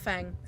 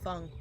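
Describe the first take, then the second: First: The vowel sounds like the one in cat. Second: The vowel sounds like the one in fun. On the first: The speaker calls it wrong. "I keep saying Fang" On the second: The speaker calls it right. "Sorry, Fung. My bad"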